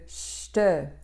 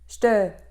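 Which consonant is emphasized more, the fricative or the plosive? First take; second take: fricative; plosive. First: The fricative consonant is given more force. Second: The plosive consonant is held with more force. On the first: The speaker calls it wrong. "au lieu de ch'te" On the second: The speaker calls it right. "ch'te au lieu de"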